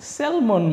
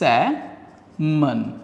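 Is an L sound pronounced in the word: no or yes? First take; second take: yes; no. First: The word is said with an L sound. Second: The word is said without an L sound. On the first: The speaker calls it wrong. "But এটা কিন্তু স্যালমন না" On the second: The speaker calls it right. "এই শব্দটার সঠিক উচ্চারণটা"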